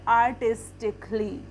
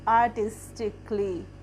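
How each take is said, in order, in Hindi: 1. अंतिम ly से पहले का स्वर साइलेंट होता है। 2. अंतिम ly से पहले का स्वर साइलेंट होता है।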